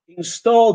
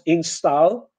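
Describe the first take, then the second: First: The vowel is a long O sound. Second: The vowel is an A sound. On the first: The speaker calls it right. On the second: The speaker calls it wrong.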